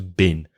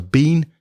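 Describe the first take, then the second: First: Been is said with a weak, reduced vowel. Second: Been is said with its full vowel.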